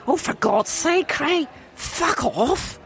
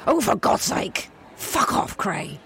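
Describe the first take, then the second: First: Higher, fuller Scottish swearing; better Scottish accent. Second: Scottish slipping into a plain English voice; a Scottish wife swearing at her husband, accent barely there; failed Scottish accent. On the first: A Scottish wife tells her husband to get lost, in a stronger Scottish accent. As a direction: hang up on him properly Scottish. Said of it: "That's better". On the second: A Scottish wife swears at her husband, the Scottish accent failing. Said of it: "That wasn't very Scottish". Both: Acted.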